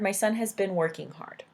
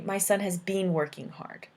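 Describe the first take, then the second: First: The word 'been' is said quickly and short. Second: The word 'been' is said fully and longer. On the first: "That's the people say it quickly in English" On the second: "Or they could say"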